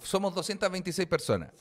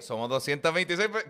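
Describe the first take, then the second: First: The voice falls through the phrase. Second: The voice rises through the phrase.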